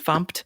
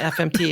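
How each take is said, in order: First: It is said as a single word, fump. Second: It is spelled out as three separate letters. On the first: The speaker calls it right. "it's F U M P" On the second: The speaker calls it wrong. "is not F M T"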